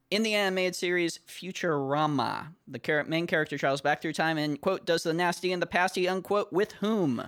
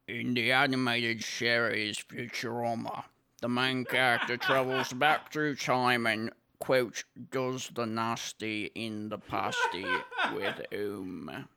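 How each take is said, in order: First: Put-on British accent. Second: Put-on working-class British accent. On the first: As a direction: rush the British accent a second time. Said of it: "in my best British accent". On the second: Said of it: "I'm gonna do this in my best British accent".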